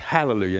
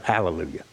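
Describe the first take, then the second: First: An h sound is heard in the word. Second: No h sound is heard in the word. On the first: The speaker calls it right. "Hallelujah here has an H. It's Hallelujah" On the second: The speaker calls it wrong. "not Hallelujah"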